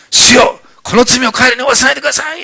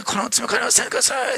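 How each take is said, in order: First: High, loud pleading cry. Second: Higher and softer, a gentle joyful plea; soft, tender dying prayer. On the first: Acted. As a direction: cry out a plea for mercy on the killers. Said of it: "最後に大声で言った言葉". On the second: Retold or imitated. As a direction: forgive them with quiet joy. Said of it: "本当に喜びながらだと思うんです".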